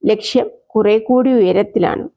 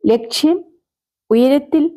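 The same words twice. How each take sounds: First: Said in the usual way. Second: ലക്ഷ്യം, then ഉയരത്തിൽ? lifted into a rising, puzzled question; echoing question. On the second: A narrator's reading. Jim echoing Susheela's words back, puzzled rising question. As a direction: repeat her words back as a questioning rise.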